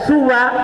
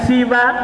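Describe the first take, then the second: First: Short u vowel first, short open ending. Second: Short i vowel first, short open ending. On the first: "dibaca suwa ka huda, seperti kata huda" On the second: "siwa karido, seperti kata ridho"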